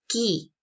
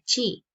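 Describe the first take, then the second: First: The word begins with a k sound. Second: The word begins with a ch sound. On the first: The speaker calls it right. "se pronuncia ki" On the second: The speaker calls it wrong. "no se pronuncia chi"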